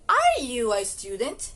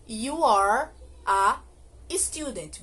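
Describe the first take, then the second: First: "Are you a student?" slowly, rising on "student"; question intonation. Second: "You are a student" slowly, falling on "student"; affirmative intonation. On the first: Teacher modelling a question for learners, rising intonation on "Are you a student?". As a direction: ask "Are you a student?", lifting the pitch at the end. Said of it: "tem que ter entonação de pergunta".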